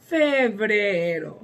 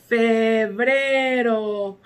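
First: Said in the usual way. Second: Febrero stretched out slowly; slow model word. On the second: Shown as a demonstration. (febrero lento y claro)

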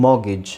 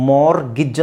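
First: ಮಾರ್ಗೇಜ್ as "mo-gij", R dropped; silent R. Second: ಮಾರ್ಗೇಜ್ as "mor-gij", R sounded; R pronounced. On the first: Teacher shows the other option, ಮಾರ್ಗೇಜ್ without R. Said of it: "ಇಲ್ಲಿ ಆರ್ silent ಆಗಿರುತ್ತೆ". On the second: Teacher allows one option, ಮಾರ್ಗೇಜ್ with R. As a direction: say ಮಾರ್ಗೇಜ್ with a clear R, no T. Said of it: "ಮಾರ್ ಅಂತಲೂ ಹೇಳ್ಬೋದು". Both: Shown as a demonstration.

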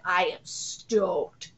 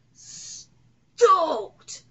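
First: Low, drawn-out, deliberate words; slow emphatic statement. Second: Higher, explosive one-word cheer; stoked outburst. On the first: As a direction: stretch it out, restrained. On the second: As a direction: burst out with drawn-out excitement. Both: Real, not acted.

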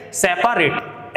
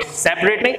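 First: सेपरेट stretched slowly into se-pa-ret, the middle a sounded; slow spelling pronunciation. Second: सेपरेट clipped to two syllables, sep-ret; quick everyday सेपरेट; spoken pronunciation. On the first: Teacher showing students the memory pronunciation. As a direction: drag out सेपरेट syllable by syllable. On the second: Teacher contrasting the usual way of saying सेपरेट. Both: Shown as a demonstration. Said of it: "इसका pronunciation आज से आप क्या करेंगे".

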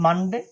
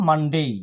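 First: Said in the usual way. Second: "মানডেই" with full -dei diphthong; corrected -day ending. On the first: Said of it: "আমরা বলি". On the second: Shown as a demonstration. Teacher corrects the usual form, full-ending "মানডেই". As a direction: say "মানডেই" as MUN-DAY, gliding into i. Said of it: "হবে".

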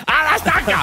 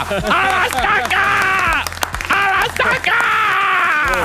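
First: High loud mock mob shout; mob cry. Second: Very high, slow, stretched-out shout; drawn-out mob cry. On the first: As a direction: yell it like a torch-waving mob. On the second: Acted. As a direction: hold each word like a chanting mob. Mock mob cry repeated slow.

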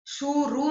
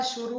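First: शुरू opening on long "shoo"; wrong vowel length. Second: Said in the usual way. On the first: Shown as a demonstration. Teacher correcting a mistake, शुरू with long shoo. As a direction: stretch the first vowel of शुरू. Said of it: "नहीं होता". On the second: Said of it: "होता है".

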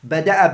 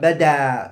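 First: Bada'a ending in a glottal stop after the second a; with hamza. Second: Bada ending in a long open aa; with alif. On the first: Teacher contrasting two ways of saying it, with hamza. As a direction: say Bada'a with a crisp hamza at the end. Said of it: "bil hamza". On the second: Teacher contrasting two ways of saying it, with alif. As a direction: say bada with a drawn-out alif, no hamza. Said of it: "bil alifi". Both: Shown as a demonstration.

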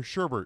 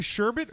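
First: "sherbet" said as sher-BERT; sherbert with second R. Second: "sherbet" ending in -bit, no second R; sherbet without second R. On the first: Co-host checking which word was said, sherbert with second R. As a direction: put an extra R before the final T in "sherbet". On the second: Co-host checking which word was said, sherbet without second R. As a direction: say "sherbet" with no R before the T. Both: Shown as a demonstration. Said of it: "Did you say sherbet or sherbet".

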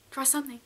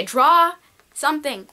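First: "Draw something" said again much softer, almost under the breath; soft repeat. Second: Said in the usual way. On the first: Shown as a demonstration. Vlogger nudging hesitant viewers to draw, soft repeat. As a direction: drop "Draw something" to a near-hush.

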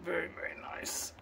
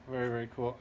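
First: Breathy Southern whisper of admiration; hushed, awed whisper. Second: Said in the usual way. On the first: Real, not acted. Admiring a Friedman amp, he whispers softly.

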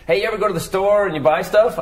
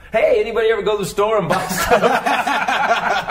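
First: Higher, louder corny club-comic setup; hacky old comic. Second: Higher, louder, slow cheesy club-comic setup; hacky old comic. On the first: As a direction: pitch it like a cheesy stand-up opener. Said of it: "I would just do stuff like". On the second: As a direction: ham up the corny opener, laughing. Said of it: "so I drop into my old stuff". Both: Retold or imitated.

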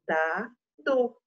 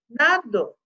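First: Said in the usual way. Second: Dado split as da-do; broken dado; syllable by syllable. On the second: Shown as a demonstration. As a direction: sound out dado. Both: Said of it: "sounding out answer".

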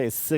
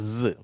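First: இஸ் with a voiceless hissing s; இஸ் ending in a plain s; incorrect voiceless sound. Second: ஸ் as a voiced, vibrating "zzz"; held, buzzing ஸ்; correct buzzing sound. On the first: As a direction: say இஸ் as "iss", no buzz. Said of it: "இஸ் கிடையாது". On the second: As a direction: make ஸ் buzz as an English z. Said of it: "ஒரு அதிர்வு இருக்கும்". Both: Shown as a demonstration.

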